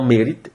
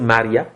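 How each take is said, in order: First: The word ends in a 't' sound. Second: The word ends in an open 'a' vowel. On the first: The speaker calls it wrong. "et non mérite" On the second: The speaker calls it right. "devrait pourtant se prononcer Maria"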